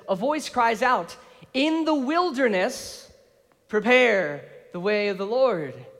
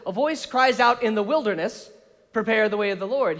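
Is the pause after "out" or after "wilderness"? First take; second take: after out; after wilderness. First: The pause comes after "out". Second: The pause comes after "wilderness".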